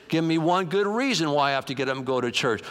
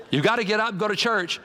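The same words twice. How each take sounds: First: Reluctant husband. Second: Higher-pitched nagging wife imitation; insistent wife. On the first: Acted. Husband demands a reason from wife, reluctant protest. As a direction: push back like a reluctant churchgoer. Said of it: "He said". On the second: Wife orders husband out of bed, insistent. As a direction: press it as a firm order. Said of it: "his wife came and said".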